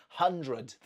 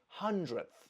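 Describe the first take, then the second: First: The d sound is pronounced. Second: The d sound is left out. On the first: The speaker calls it wrong. "I don't say hundredth. That's too difficult" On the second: The speaker calls it right. "we drop the d and we say hundredth"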